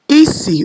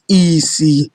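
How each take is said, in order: First: The first syllable is high, the second low. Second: Both syllables are on a low tone. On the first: It means smell. "which is high, low" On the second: It means blindness. "low, low, blindness"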